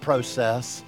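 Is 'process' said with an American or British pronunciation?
British. It is said with a British pronunciation. "not process"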